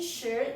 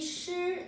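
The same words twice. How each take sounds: First: The pitch rises from mid to high. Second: The pitch stays high and level. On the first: It means time. "That's again second tone" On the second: It means to lose. "That's flat tone. That's one"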